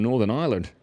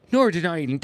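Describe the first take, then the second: First: Said in the usual way. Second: High, hammed-up Northern Irish accent; bad Northern Irish accent. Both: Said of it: "I can't do the accent".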